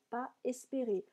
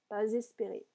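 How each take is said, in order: First: The s of pas is silent, no link. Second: A z sound links pas to the next word. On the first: "Je ne fais pas la liaison volontairement" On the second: "il faudrait faire une liaison"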